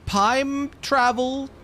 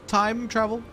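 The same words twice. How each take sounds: First: "Time travel" stretched slow and high; drawn-out amazement. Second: "Time travel" quicker, moderately high; milder repeat. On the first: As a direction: hang on each word of "Time travel". Exclaims the discovery slowly. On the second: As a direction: try "Time travel" as a lighter question. Repeats it less drawn out. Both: Pretend.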